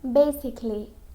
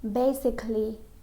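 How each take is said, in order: Both takes have the same delivery.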